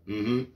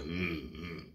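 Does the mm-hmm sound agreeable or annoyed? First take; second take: agreeable; annoyed. First: The grunt sounds easy and agreeable. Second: The grunt sounds irritated and annoyed. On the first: It means yes. "That's saying, yeah" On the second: It shows anger at the person asking. "if you're mad at somebody"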